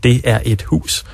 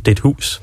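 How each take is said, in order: First: Every word is said in full. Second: "Det er et" is merged into one short syllable. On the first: "Hvis vi skal sige" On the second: "så siger vi det hus"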